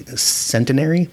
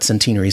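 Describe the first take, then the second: First: It uses an American pronunciation of the word. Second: It uses a British pronunciation of the word. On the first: The speaker calls it wrong. "I think I would normally say centenary" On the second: The speaker calls it right. "centenary sounds better"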